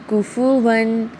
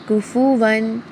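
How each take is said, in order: Both takes have the same delivery.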